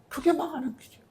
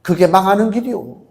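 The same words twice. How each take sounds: First: Much softer, a near-breathed repeat of 그게 망하는 길이요 with 그게 leaning; hushed warning. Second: Said in the usual way. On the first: Acted. Preacher echoing his warning to the congregation in a hush. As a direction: drop the voice right down on the echo.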